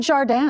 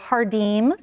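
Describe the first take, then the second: First: The name is pronounced the French way. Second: The name is pronounced the Portuguese way. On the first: "like French" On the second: "that's the Portuguese"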